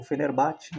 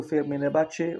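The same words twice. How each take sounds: First: Fenerbahçe with a weakened final "tchi"; alternative pronunciation. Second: Fenerbahçe with a clear final "tchê"; alternative pronunciation. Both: Shown as a demonstration. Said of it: "não sei até hoje como pronuncia".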